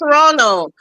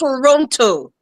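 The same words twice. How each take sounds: First: The word is clipped, with syllables reduced. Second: Every syllable is said fully, as written. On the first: This is how locals say the name. "that's how we call it here" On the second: This is how the name is written. "but it's spelled"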